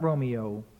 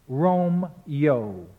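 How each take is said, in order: First: The name is spoken with three full syllables. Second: The name is squeezed into two syllables. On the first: The speaker calls it wrong. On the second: The speaker calls it right. "reduced through synesthesis to two syllables"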